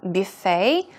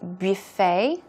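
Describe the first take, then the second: First: The word is said in a French-like way. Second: The word is said in a French-like way.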